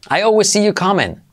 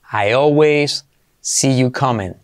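First: Said in the usual way. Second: Drawn out for learners, word by word; slow. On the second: Shown as a demonstration. Teacher to students, slow model sentence. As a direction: say it slowly so students follow. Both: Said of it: "slow model then normal".

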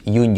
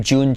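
First: "June" said with a Spanish Y; wrong Y sound. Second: "June" with a clear dj sound; correct J. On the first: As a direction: say "June" as "Yun". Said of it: "lo hacemos como una Y". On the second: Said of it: "en lugar de decir June". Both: Shown as a demonstration.

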